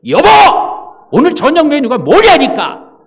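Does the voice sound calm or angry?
angry. It is asked in an angry voice.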